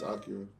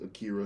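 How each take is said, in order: First: The name is pronounced in the Japanese way. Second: The name is pronounced in an anglicized way. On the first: The speaker calls it right. "but it's Akira" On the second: The speaker calls it wrong. "I used to say"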